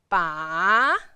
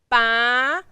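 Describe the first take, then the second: First: The pitch dips low and then rises. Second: The pitch rises from mid to high. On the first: "the third tone, you will move your chin down and then move your head up later" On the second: "the second tone, you can move your eyebrow a little bit up"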